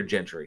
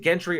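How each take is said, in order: First: Gentry with a soft G, like a J. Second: Gentry with a hard G, as in get. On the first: Host checking how to read a viewer's name, Gentry with soft G. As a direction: say Gentry starting with a j sound. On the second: Host checking how to read a viewer's name, Gentry with hard G. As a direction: say Gentry starting with a hard g sound. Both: Shown as a demonstration. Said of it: "is it Gentry or Gentry".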